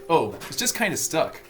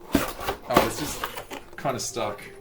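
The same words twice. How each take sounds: First: It is said in a put-on American accent. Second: It is said in a non-American accent.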